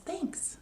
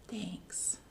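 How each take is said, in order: First: Higher, soft thanks; a shy grateful bear. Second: Soft breathy whisper of thanks; a touched bear barely speaking. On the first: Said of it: "The bear says". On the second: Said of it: "And the bear says". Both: Acted.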